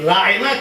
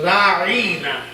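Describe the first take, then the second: First: The word is said plainly without stretching. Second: The middle vowel of the word is drawn out.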